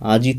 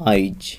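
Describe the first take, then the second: First: The i sound comes after the j. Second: The i sound comes before the j. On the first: This is the standard form. "আজি থেকে আইজ" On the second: This is the dialect form. "শব্দ মধ্যস্থ ই বা উ তার পূর্ববর্তী ব্যঞ্জনের পূর্বে সরে এসে উচ্চারিত হয়"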